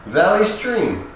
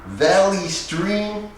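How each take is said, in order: First: Said in the usual way. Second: Slow, high disbelieving echo of the town; lightly voiced Joe Pesci, slow and doubting; incredulous Pesci. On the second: A narrator's reading. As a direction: repeat it slowly as if it cannot be real. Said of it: "he said, shaking his head".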